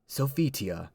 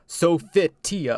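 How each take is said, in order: First: The name flows smoothly with syllables run together. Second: The name is carefully over-articulated, syllable by syllable. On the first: "it flows, but it sounds like she's defeated" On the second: "like over pronounced it"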